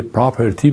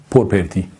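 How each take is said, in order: First: پراپرتی said "praperti", r right after p; تلفظ درست property. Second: پرپرتی said "porperti", vowel before the r; تلفظ غلط property. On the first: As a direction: keep the "pra" cluster at the start of پراپرتی. (تلفظ property به شکل «پراپرتی») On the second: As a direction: swap the opening of پرپرتی to "por". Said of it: "ممکنه به پراپرتی بگم پرپرتی". (تلفظ property به شکل «پورپرتی») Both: Shown as a demonstration.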